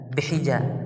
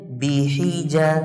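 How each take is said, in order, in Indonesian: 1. Vokal setelah b dibaca pendek. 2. Vokal setelah b dibaca penuh.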